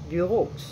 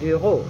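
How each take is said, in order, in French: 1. Le x final est prononcé. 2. Le mot se termine sans son x. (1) "vous ne dites pas bureaux" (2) "Le X est silencieux"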